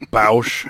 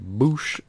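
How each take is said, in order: First: The vowel sounds like ow in cow. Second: The vowel sounds like oo in boot. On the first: "however you want to pronounce it" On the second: "or Bausch, however you want to pronounce it"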